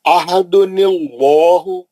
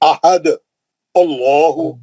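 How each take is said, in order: First: The words run together with a linking nun. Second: The voice stops after ahad before the next word. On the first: "तो अब कैसा पढ़ेंगे इसको?" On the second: "अगर आप यहाँ रोक दिया"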